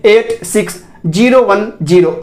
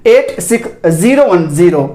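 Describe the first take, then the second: First: Both ज़ीरो said as "jeero"; wrong J sound. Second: Both ज़ीरो said with buzzing Z; correct Z sound. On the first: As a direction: read the digits with ज़ीरो mispronounced with J. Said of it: "ऐसे नहीं बोलेंगे". (ज़ीरो को जीरो, गलत उच्चारण) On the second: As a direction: read the digits, lower, ज़ीरो starting with Z. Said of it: "ये नहीं सही है". (ज़ीरो में ज़ की ध्वनि) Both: Shown as a demonstration.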